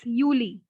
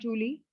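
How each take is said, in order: First: It starts with a 'y' sound. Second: It starts with an English 'j' sound. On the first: The speaker calls it right. "It's Yuli" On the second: The speaker calls it wrong. "It's not Julie"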